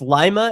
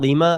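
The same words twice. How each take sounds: First: It is said the local Ohio way. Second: It is said the way Peru's capital is. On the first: This is how the town's own people say it. The speaker calls it right. "It's Lima" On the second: This is how out-of-towners say it. The speaker calls it wrong. "It's not Lima"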